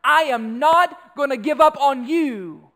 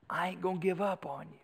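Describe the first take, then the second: First: Loud, raised, slow and emphatic; forceful declaration. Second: Softer, understated promise; quiet vow. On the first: Preacher summing up love for the congregation, loud and resolute. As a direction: proclaim it with full conviction, spacing the words. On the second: Preacher restating what love is, quiet and resolute. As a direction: bring it down to a hushed resolve. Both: Acted.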